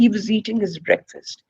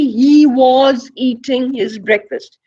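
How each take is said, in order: First: The word 'was' is said in reduced form. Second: The word 'was' is said in full form. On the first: The speaker calls it right. "We say" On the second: The speaker calls it wrong. "we never say"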